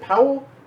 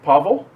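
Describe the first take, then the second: First: The middle consonant is a W sound. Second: The middle consonant is a V sound.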